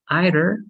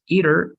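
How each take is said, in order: First: It is said the British way. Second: It is said the American way. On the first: "British is either" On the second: "American is either"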